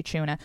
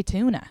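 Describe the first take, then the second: First: "tuna" said the Irish way, as "choona"; Irish pronunciation. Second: "tuna" said the American way, as "toona"; American pronunciation. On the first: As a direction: open "tuna" with a CH sound, "choona". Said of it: "So we say tuna". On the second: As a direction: open "tuna" with a clean T, "toona". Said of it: "my audience is mainly American". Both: Shown as a demonstration.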